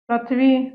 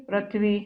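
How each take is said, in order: First: पृथ्वी without its r, as "pathvi"; louder faulty पृथ्वी, opening pa- instead of pri-; mispronounced पृथ्वी. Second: Said in the usual way. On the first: Shown as a demonstration. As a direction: drop the r in पृथ्वी. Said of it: "अशुद्ध वर्तनी". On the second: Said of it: "ये सारी शुद्ध है".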